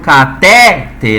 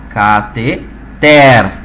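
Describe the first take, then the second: First: The stress is on the middle syllable. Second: The stress is on the last syllable. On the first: The speaker calls it wrong. "em posição de paroxítona aqui" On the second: The speaker calls it right. "a tonicidade se encontra no ter"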